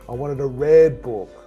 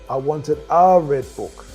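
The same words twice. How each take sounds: First: The stress is on the word red. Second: The stress is on the word a.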